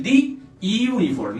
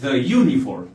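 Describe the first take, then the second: First: "the y uniform" as "dhee ee-oo-niform"; wrong thee ee-uniform. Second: "the uniform" as "dhuh yoo-niform"; short vowel in THE of "the uniform"; corrected "thuh" before "uniform". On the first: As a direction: stretch ee vowels through "the y uniform". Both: Shown as a demonstration. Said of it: "no, the uniform".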